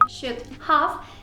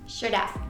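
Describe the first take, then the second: First: Both words are said in full. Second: The two words are joined into one contracted form. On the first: "la expresión should have" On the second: "La contracción de esta expresión es"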